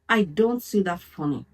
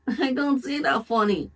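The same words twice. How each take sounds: First: It is said in a firm, steady way. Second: It is said in a weak, hesitant way. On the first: The objection is meant seriously. The speaker calls it right. "No, look at them in the eyes" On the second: The objection is not meant seriously. The speaker calls it wrong. "Don't say it why like"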